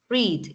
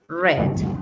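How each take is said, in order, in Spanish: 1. La vocal es un sonido largo 'ee'. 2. La vocal es un sonido corto 'e'. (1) "esta forma se lee con I" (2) "Con la E"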